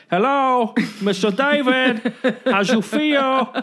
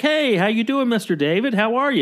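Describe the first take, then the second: First: Put-on higher, slow Latino-accented hello, with a laugh; drawn-out, laughing Latino accent imitation; Latino accent quote. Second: Lightly raised, mildly imitated greeting; a hint of the handyman's cheerful hello; handyman's first try. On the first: Larry coaching the handyman, slow Latino accent. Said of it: "that's how the guy speaks". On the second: Larry coaching the handyman, first light greeting. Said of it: "Okay, so say it like that".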